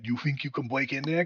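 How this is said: It is said in an Elmer Fudd voice.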